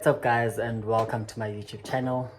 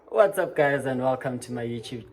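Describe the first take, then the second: First: It is said more softly. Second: It is said too loudly.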